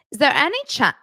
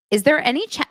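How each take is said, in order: First: Attempted Hackney London accent; a faint stab at his Hackney London accent. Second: Said in the usual way. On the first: Reading the DM to viewers in a faint Hackney accent. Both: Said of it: "I'm gonna try to do it in his accent".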